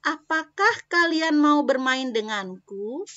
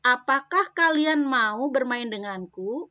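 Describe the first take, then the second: First: Slow, high, louder with rising end on "denganku"; questioning tone. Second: Rising "denganku" at the end; questioning tone. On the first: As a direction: invite friends to play, rising. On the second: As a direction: ask with a lifting tune. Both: Shown as a demonstration. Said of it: "ini kalimat tanya".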